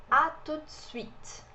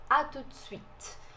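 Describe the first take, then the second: Both takes have the same delivery.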